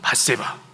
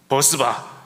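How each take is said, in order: First: The name begins with the syllable 'bat'. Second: The name begins with the syllable 'beo'. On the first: The speaker calls it right. "이 발음 잘해야 됩니다" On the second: The speaker calls it wrong. "이 발음을 잘못해서 또 이렇게 표현하더라고요"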